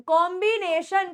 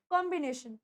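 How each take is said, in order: First: COMBINATION broken into long, over-sounded syllables; drawn-out syllables. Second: Said in the usual way. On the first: Shown as a demonstration. Teacher shows students how not to say कॉम्बिनेशन, over-stretched. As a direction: overdo each syllable of कॉम्बिनेशन. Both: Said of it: "करके नहीं बोलना".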